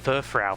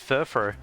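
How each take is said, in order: First: The last syllable rhymes with cow. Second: The last syllable rhymes with go. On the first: The speaker calls it wrong. "call it Furfrau for ages" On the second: The speaker calls it right. "it's meant to be pronounced as Furfro"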